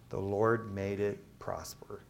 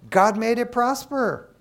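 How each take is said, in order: First: Soft and slow, almost to himself; hushed, slow setup line; quiet. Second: High, loud and slow; preacher's loud slow declaration; loud proclaiming. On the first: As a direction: drop the voice and slow down. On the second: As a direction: proclaim it to the room. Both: Shown as a demonstration.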